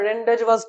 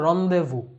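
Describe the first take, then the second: First: The z and final s sounds are pronounced. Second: The z and final s sounds are silent. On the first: The speaker calls it wrong. "অনেকে ভুল উচ্চারণ করে" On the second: The speaker calls it right. "Actual উচ্চারণ হচ্ছে রন্দেভু"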